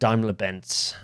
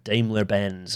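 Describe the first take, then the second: First: The name is pronounced the German way. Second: The name is pronounced the English way.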